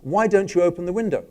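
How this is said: It sounds like a mild, friendly suggestion.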